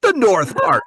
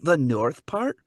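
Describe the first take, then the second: First: Loud, high fake Scottish answer; bold Scottish bluff. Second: Unsure fake Scottish, rising at the end; tentative Scottish bluff. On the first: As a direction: insist in a put-on Scottish accent. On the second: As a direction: guess hopefully in a put-on Scottish accent. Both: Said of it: "do your Scottish accent".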